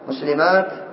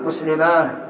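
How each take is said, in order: First: The word ends with a t sound. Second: The word ends with an h sound.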